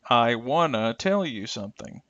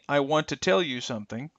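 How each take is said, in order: First: 'Want to' is reduced and blended together. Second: 'Want to' is said fully as two words. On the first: "extreme reductions" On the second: "will become"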